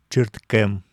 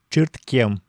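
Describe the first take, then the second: First: The k before e stays hard. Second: The k before e is softened. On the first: This is the textbook pronunciation. "вместо «чирткем»" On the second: This is how most native speakers say it.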